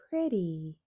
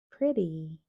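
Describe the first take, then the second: First: The middle consonant is a soft d sound. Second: The middle consonant is a soft d sound.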